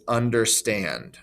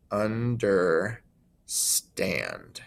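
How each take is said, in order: First: Said in the usual way. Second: "understand" drawn out very slowly as under... STAND; overemphasized end stress. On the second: Shown as a demonstration. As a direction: split "understand", lower, weight on the long STAND. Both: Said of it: "more emphasis on the end".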